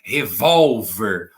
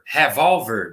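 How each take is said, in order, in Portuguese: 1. A tônica está na sílaba do meio. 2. A tônica está na primeira sílaba. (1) "Olha como é mais forte, bem no meio" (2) "vou colocar no ré. Você fala revólver? ... Não"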